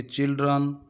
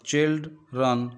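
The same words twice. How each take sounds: First: Said in the usual way. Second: children said in two parts, chilled, then रन; teacher dividing children into two separate syllables; split into syllables. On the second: Shown as a demonstration. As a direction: break children after chilled with a clear pause. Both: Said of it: "दो हिस्सों में पढ़ते हैं".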